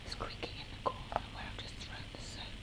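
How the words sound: It is whispered.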